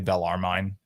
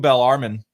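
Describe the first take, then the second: First: The name is said as it looks written. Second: The name is said the standard way. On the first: The speaker calls it wrong. "I'm a Yankee. I would say Bellarmine if I saw that" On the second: The speaker calls it right. "which I pronounced correctly now"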